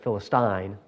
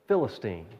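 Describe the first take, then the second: First: It uses the British pronunciation. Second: It uses the common American pronunciation. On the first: "all the British sites said Philistine" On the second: "the majority of them pronounced it Philistine. So, well, that's that's how I pronounce it anyway"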